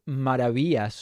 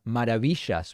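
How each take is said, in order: First: It is said with an English-speaking accent. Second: It is said with an Argentine Spanish accent.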